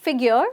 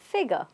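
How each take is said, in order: First: The ending is pronounced as spelled, with R E. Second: The ending is reduced, without a full R E. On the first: The speaker calls it wrong. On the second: The speaker calls it right.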